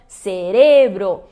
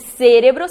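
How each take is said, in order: First: The stress is on the second syllable. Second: The stress is on the first syllable. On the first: The speaker calls it right. "muda também a sílaba tônica em relação ao português" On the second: The speaker calls it wrong. "Se fosse cérebro, seria uma proparoxítona"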